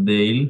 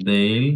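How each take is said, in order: The two takes are said the same way.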